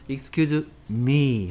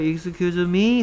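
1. 끝에서 음이 내려갑니다. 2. 끝에서 음이 올라갑니다. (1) "끝이 내려가 intonation이 downfalling 하는 intonation이 해야 됩니다" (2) "물음표 들어가면 얘는 뭐다? 뭐라고요?"

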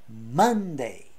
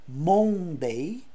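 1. A primeira vogal é reduzida, como um schwa. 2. A primeira vogal é um o pleno. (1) "é Monday" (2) "Então não é Monday"

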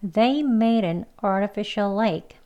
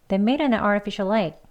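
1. 이 문장은 천천히 말하고 있어요. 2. 이 문장은 빠르게 말하고 있어요.

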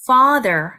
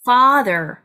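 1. 첫 번째 모음은 길고 열린 소리예요. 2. 첫 번째 모음은 길고 열린 소리예요.

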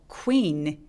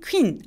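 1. 짧게 'oo'하고 미끄러지는 소리로 시작해요. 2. 갑자기, 한 번에 시작해요. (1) "시동 걸어서 quee라고 나눠서 발음합니다" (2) "아니고"

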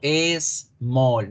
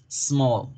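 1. La palabra se separa en partes distintas. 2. La palabra se dice con fluidez como una sola sílaba. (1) "No digo small. No la separo en pronunciación" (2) "la pronuncio de una sola vez"

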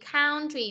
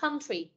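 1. Nguyên âm đầu nghe như 'ow' trong cow. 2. Nguyên âm đầu nghe giống âm 'ơ' trong tiếng Việt. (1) "country là sai ... Có nhiều bạn đọc là cow, âm ao là sai" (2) "Hoặc là country, con âm ớ"

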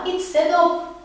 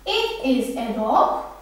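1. It is, tek heceye kısaltılır. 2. It is, iki tam kelime olarak söylenir.

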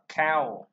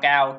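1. Đọc với âm K tiếng Anh và "ow". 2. Đọc giống âm tiết tiếng Việt "cao". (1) "Chúng ta đọc là cow" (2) "chúng ta không có đọc là cao cao"

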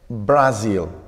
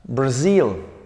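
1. El acento está en la primera sílaba. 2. El acento está en la segunda sílaba. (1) "no es Brazil" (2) "El acento está aquí"

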